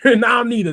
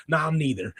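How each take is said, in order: First: Louder and higher, laughing. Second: Said in the usual way. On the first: Real, not acted. Fan laughing at being over both Bellas. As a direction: laugh at your own verdict.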